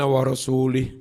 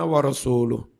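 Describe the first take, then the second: First: The vowel before the final h is i. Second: The vowel before the final h is u. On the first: God disowns the idolaters and His messenger. The speaker calls it wrong. "Ini ada orang baca salah" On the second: God and His messenger both disown the idolaters. The speaker calls it right. "Wa rasuluh itu dibaca rofa"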